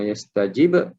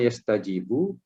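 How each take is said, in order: First: The word ends with no final vowel. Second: The word ends with a final u vowel. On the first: The verb is in the jussive mood. "hukumnya adalah majzum" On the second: The verb is in the indicative mood. "hukumnya adalah marfu'"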